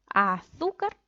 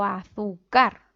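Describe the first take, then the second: First: Azúcar as a-ZÚ-car, slowly stretched; stress on middle syllable. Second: Azúcar as azu-CAR, slow with loud final CAR; stress on last syllable. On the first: Teacher offering the right option, stressed aZÚcar. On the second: Teacher offering a wrong option, stressed azuCÁR. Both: Shown as a demonstration. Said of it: "¿Dónde cargamos la voz?".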